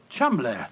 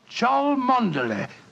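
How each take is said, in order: First: The name is said short, as two syllables. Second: The name is said as spelt, three syllables. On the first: The speaker calls it right. "the name Chumley is in no way pronounced the way it is spelt" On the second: The speaker calls it wrong.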